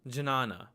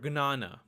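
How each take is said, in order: First: The word begins with a j-n sound. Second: The word begins with a hard g-n sound. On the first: This is how some Sanskrit teachers read it. "Some Sanskrit teachers will actually read this as jna" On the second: This is how it is said in Gujarati. "it's pronounced as gna"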